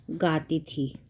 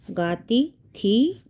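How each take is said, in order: First: Said in the usual way. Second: गाती and थी stretched apart, each rising; slow dictation. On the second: Shown as a demonstration. Teacher writing out the answer, slow dictation. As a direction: say गाती, pause, then a lifted थी.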